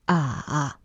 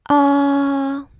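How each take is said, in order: First: The pitch dips down then comes up. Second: The pitch stays high and level. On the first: "the third tone is the dip" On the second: "Tone one is high, flat, like a dentist saying ah"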